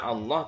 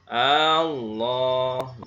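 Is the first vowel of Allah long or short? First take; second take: short; long. First: The first vowel is short. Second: The first vowel is drawn out long. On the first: It states that God is great. The speaker calls it right. "Seharusnya dibaca" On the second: It asks whether God is great. The speaker calls it wrong. "memanjangkan hamzah pada lafaz Allah"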